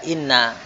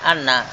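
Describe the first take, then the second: First: The word begins with an 'i' vowel. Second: The word begins with an 'a' vowel. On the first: The speaker calls it right. "hamzah inna itu di kasrah, tidak di fathah. Dibaca inna" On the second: The speaker calls it wrong. "bukan anna"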